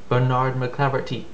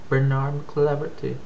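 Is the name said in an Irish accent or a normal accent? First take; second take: normal; Irish. First: The name is said in the speaker's usual accent. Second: The name is said in an attempted Irish accent.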